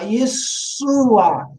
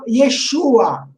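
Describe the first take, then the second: First: The middle consonant is a hissing 's' sound. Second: The middle consonant is a hushing 'sh' sound. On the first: This is how a Greek speaker would say it. "Ele fala um S" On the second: This is the original Hebrew pronunciation. "os gregos não conseguem fazer sh"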